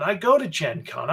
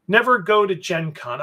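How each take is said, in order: First: "go" pressed firmly to correct the claim; stress on go. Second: Said in the usual way. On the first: Real, not acted. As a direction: lean on the word "go" to set the record straight.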